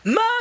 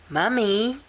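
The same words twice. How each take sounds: First: The word is yelled as loud as possible. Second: The word is said very quietly.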